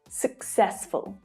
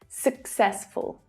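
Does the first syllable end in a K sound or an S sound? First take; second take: K sound; K sound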